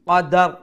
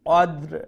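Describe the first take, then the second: First: A short vowel is heard between d and r. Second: The d and r join with no vowel between. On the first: The speaker calls it wrong. "দালের উপরে যে অরিজিনাল জজম আছে এই জজমটা কিন্তু আমরা জবরে পরিণত করলাম" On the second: The speaker calls it right. "দুইটা জজম বিভাষে আমরা কইমু"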